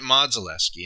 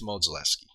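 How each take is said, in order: First: Modzelewski starting with an open MAHD; first vowel of Modzelewski as in nod; mispronounced surname. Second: Modzelewski starting with MOHD, long O as in Mo; long O in the first syllable of Modzelewski; corrected pronunciation. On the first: Retold or imitated. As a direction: say Modzelewski as "MAHD-zuh-LESS-kee". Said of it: "they pronounced it Modzelewski". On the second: Shown as a demonstration. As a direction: say Modzelewski as "MOHD-zuh-LESS-kee". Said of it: "it's not Modzelewski, it's Modzelewski".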